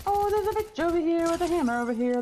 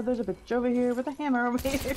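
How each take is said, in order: First: Urgent. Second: Said in the usual way. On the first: Real, not acted. Urgent alert in game.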